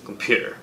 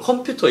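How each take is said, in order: First: The stress is on the second syllable. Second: All syllables get about equal weight. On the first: The speaker calls it right. "퓨에다 강세를 넣잖아요" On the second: The speaker calls it wrong. "이게 아니잖아요"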